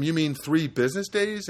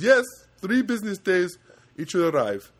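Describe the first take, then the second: First: Said in the usual way. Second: Put-on loud, high Indian accent. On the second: Agent confirming delivery time, imitated Indian accent. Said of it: "And he goes".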